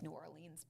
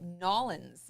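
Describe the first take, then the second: First: The name is said in full, every syllable. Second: The name is squeezed into two short syllables. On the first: This is how the spelling looks. "it looks like New Orleans" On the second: This is how locals say it. "that's how they would say it"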